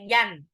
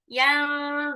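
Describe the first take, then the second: First: The n is pronounced fully and clearly. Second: The nasal sound is soft and partly hidden. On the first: The speaker calls it wrong. "jadi nggak boleh yan" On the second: The speaker calls it right. "jadi cukup yang duruna"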